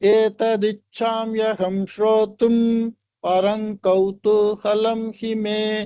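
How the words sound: It breaks into two parts with a mid-line pause. The verse is read quarter by quarter. "பாதம் பாதமா படிச்சா"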